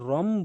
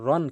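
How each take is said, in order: First: The syllable ends with a nasal m sound. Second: The syllable ends with a plain n sound. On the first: The speaker calls it right. "রম বলবো" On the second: The speaker calls it wrong. "মূলত উচ্চারণ হয় কি র দুই জবর রন"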